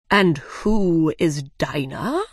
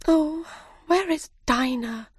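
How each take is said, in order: First: The Dodo asking Alice, slow and curious; puzzled Dodo. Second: Put-on high, worried girl's voice; Alice asking for her cat, high and worried; anxious Alice. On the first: Acted. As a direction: drawl the question out like a curious old bird. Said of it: "the Dodo asked". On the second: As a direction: ask it like a little girl missing her cat. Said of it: "said Alice".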